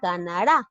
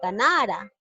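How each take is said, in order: First: The stress falls on the last syllable. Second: The stress falls on the second-last syllable. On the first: The speaker calls it right. "debe decir ganará... En la sílaba ra" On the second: The speaker calls it wrong. "Si lo leo tal y cual dice"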